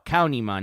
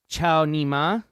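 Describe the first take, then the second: First: The name begins with a 'k' sound. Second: The name begins with a 'ch' sound. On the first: The speaker calls it right. "Cow Nima, not chow" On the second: The speaker calls it wrong. "not chow"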